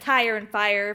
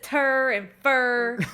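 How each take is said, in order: First: The vowels are said as full standard diphthongs. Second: The vowels are flattened in a Southern drawl. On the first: This is the usual way the words are said. "that's tire and fire for anyone who doesn't know" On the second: This is how a Southern relative says it. "he still says tur and fur"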